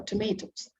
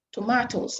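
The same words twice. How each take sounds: First: "tomatoes" said as tuh-MAY-toes; "tomatoes" with MAY as second syllable; American-style pronunciation. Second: "tomatoes" said as tuh-MAH-toes; "tomatoes" with MAH as second syllable; British-style pronunciation. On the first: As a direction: say "tomatoes" with a long AY in the middle. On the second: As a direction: say "tomatoes" with a broad AH in the middle. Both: Shown as a demonstration. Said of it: "tomatoes or tomatoes".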